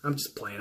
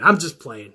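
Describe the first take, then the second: First: Much softer, lower aside; sheepish quiet take-back; backing off softly. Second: Said in the usual way. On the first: Real, not acted. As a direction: drop it to a near murmur.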